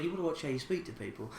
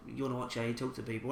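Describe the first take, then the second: First: Softer, quick, muttered warning; a hushed quick telling-off, half to himself; quiet rebuke to a rude stranger; said a bit quiet. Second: Softer, quick, muttered warning under the breath; low-key quiet telling-off; quiet, fast rebuke to a rude stranger; said a bit quiet. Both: Retold or imitated. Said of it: "I sort of said it a bit quiet".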